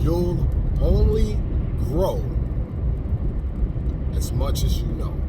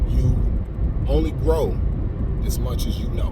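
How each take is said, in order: First: The phrase is spoken at an even slower pace. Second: The phrase is spoken at a slow pace. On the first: "I don't know if I can say it slower than that. Let me try it" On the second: "I tried to say that slow"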